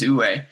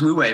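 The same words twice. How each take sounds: First: It uses the native-style pronunciation. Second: It uses the common English pronunciation. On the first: The speaker calls it right. "I think the actual pronunciation is" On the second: The speaker calls it wrong. "commonly referred to as"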